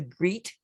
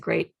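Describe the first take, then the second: First: The vowel is a long ee sound. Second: The vowel is a long ay sound. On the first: The speaker calls it wrong. "the E A pronunciation as in beat" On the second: The speaker calls it right. "the E A pronounced as in steak"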